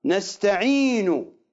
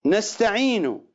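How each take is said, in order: First: نستعين with a lengthened final u, slow; variant reading. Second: Said in the usual way. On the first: Shown as a demonstration. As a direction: stretch out the end of نستعين as a long u. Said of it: "بالواو، ليس بالضمة". (نستعين بالواو لا بالضمة) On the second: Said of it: "يقرؤونها".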